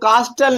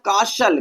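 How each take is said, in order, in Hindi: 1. t की ध्वनि साफ़ बोली जाती है। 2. t की ध्वनि मौन रहती है। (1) "बहुत से लोग कास्टल पढ़ देते हैं, तो कास्टल नहीं" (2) "हमें क्या पढ़ना भैया, काशल"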